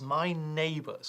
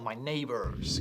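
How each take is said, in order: First: It is said in a British accent. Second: It is said in an American accent.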